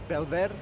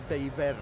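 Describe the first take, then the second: First: The middle consonant is a clear L sound. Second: The middle consonant is a Y-like glide sound. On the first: This is the Castilian Spanish pronunciation. "Castellano pronunciation it's Belver" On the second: This is the Catalan pronunciation. "in Catalan it's probably Beiver"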